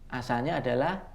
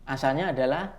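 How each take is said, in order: No difference in how they are said.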